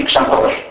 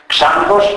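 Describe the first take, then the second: First: Said in the usual way. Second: Ξάνθος stressed on ΞΑΝ; Ξάνθος with the accent moved forward to the start; stress on first syllable. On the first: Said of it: "αντί ξανθός". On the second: Shown as a demonstration. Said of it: "Ξάνθος αντί ξανθός".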